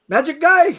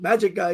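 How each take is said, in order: First: "Magic guy." called out much higher, stress on "guy"; cheery boatman. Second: "Magic guy." echoed through a laugh, falling tune; amused repeat. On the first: Boatman greeting [name] at the pier, high cheery call. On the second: [name] echoes the boatman's phrase, laughing. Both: Retold or imitated.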